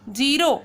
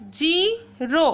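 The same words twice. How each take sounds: First: Said in the usual way. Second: जीरो drawn out very slowly, final oh long; slow model word. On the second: Shown as a demonstration. Teacher models जीरो very slowly for pupils. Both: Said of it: "इनको किस तरह से pronounce करना है".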